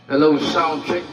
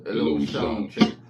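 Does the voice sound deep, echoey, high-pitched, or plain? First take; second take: echoey; deep. First: The voice has an echo effect added. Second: The voice is shifted lower and sounds deep. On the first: "may echo na siya" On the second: "mababa din yung effects"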